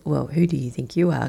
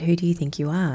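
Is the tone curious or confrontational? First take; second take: confrontational; curious. First: It is asked as a hostile challenge. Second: It is asked with genuine curiosity.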